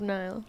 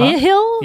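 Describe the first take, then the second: First: It is said as one syllable without h. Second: It is said as two syllables with h.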